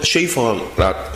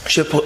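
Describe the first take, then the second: First: The first vowel is a long 'ay' sound. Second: The first vowel is a short 'e' sound. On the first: The speaker calls it right. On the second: The speaker calls it wrong.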